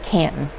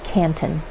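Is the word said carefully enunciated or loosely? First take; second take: loosely; enunciated. First: The word is said loosely, not carefully enunciated. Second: The word is said with every sound clearly enunciated. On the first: This is the speaker's own usual way of saying it. "I call it Canton" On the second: This is how someone else says it. "My daughter would call it Canton. She enunciates very well"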